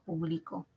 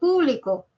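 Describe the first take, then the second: First: The stress is not on the first syllable. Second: The stress is on the first syllable. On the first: It is a verb meaning I publish. "es el verbo, es un verbo, es una acción" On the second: It is the word meaning public. "está en la antepenúltima, es esdrújula"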